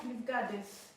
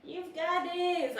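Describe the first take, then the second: First: Said in the usual way. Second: You've got this drawn out slowly and pitched higher; slow emphatic pep talk. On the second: Real, not acted. Telling herself she can do it, slow and emphatic. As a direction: stretch out You've got this, high and deliberate. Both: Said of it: "I'm giving myself motivation".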